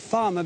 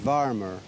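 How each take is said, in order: First: It is said in a standard accent. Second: It is said in a Midlands accent with a strong R.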